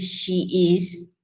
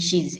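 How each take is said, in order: First: The verb is said as a full separate word. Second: The verb is reduced to a single s sound.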